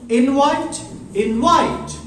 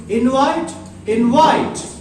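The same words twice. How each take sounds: No difference in how they are said.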